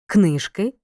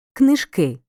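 First: Книжки with stress on the last syllable, книжкИ; stress on the ending. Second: Книжки with stress on the first syllable, КНИжки. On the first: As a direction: lean on the final и of Книжки. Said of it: "Розрізняй форми родового відмінка однини". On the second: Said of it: "називного відмінка множини за наголосами". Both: Shown as a demonstration.

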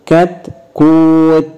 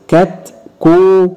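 First: كتكوت very slowly as "kat-kūūt"; stopped with sukun. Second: كتكوت higher, very slowly as "kat-kū-tun"; linked-form كتكوت with the final t voweled; voweled ending. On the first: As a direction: say كتكوت closing on a bare t, no vowel after. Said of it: "هقف بالسكون". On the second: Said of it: "بالتشكيل اتنطقت تاء". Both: Shown as a demonstration.

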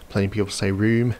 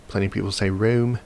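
Both takes have the same delivery.

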